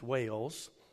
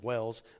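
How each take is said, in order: First: The vowel is long, like in 'whale'. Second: The vowel is short, like in 'well'. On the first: The speaker calls it right. "but it's Wales. Okay, that sounds better" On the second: The speaker calls it wrong. "I say Wells"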